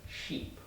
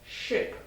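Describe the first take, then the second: First: "Sheep" hushed, cheeks out, teeth shown. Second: "Ship" short, hushed, quick i. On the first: Teacher models "Sheep" for students, hushed. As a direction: show the teeth and stretch "Sheep". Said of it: "my cheeks come out, teeth". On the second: Teacher models "Ship" for students, hushed and short. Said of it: "My nose moves". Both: Shown as a demonstration.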